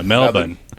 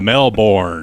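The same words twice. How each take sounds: First: It is said with an Australian pronunciation. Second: It is said with an American pronunciation. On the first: The local pronunciation was used. "appreciate you using uh, Melbourne" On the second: An outsider's pronunciation was avoided. "instead of Melbourne"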